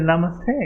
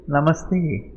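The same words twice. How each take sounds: First: Put-on a light American accent on "Namaste"; "Namaste" said the American way, ending on a rise; imitating an American saying "Namaste". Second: Said in the usual way. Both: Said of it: "With an American accent".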